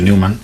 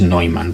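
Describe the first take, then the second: First: The name is said with non-German pronunciation. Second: The name is said with German pronunciation. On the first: The speaker calls it wrong. "yo siempre había dicho Neumann" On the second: The speaker calls it right. "y es Neumann porque también es alemán"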